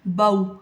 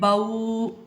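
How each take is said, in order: First: The syllable is said smoothly, neither clipped nor lengthened. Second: The vowel is stretched out long. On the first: The speaker calls it right. "हमने क्या पढ़ा है?" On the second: The speaker calls it wrong. "इनको हमने बाऊ खींचा नहीं है"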